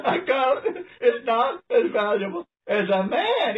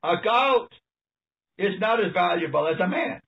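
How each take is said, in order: First: Chuckling through the words, pitched up; laughing repeat. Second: Said in the usual way. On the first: Real, not acted. Preacher marvels at the goat line for listeners, laughing.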